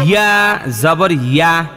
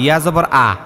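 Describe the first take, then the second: First: The final syllable begins with a y sound. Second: The final syllable begins with a plain vowel. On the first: The speaker calls it right. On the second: The speaker calls it wrong.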